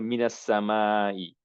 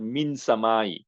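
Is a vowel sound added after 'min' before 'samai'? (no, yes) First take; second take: yes; no. First: An added 'a' vowel links min to samai. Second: Min ends on n with no added vowel. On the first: The speaker calls it right. "instead of sukun they put a fatha" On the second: The speaker calls it wrong. "it's not min samai. No, it doesn't sound good"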